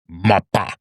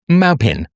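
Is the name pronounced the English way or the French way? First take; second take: French; English. First: The name is pronounced in a French style. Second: The name is pronounced in an English style.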